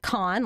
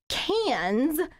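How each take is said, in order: First: It sounds like con, with an open vowel. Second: It sounds like cans, ending in s. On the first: "like con, like con artist" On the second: "cans with an S, like cans of paint"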